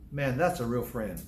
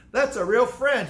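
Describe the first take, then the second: First: Said in the usual way. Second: Louder and higher, hammering the point; emphatic repeat. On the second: Real, not acted. Preacher repeating to the congregation, loud and emphatic. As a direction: drive home that's a real friend.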